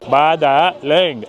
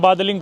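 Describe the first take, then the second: First: The name is pronounced the way Chinese speakers say it. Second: The name is pronounced as read in English. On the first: "Chinese में बोलते हैं बादालिंग, ऐसे अजीब सा" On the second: "English में पढ़ोगे तो अपन बादलिंग प्रोनाउंस करेंगे"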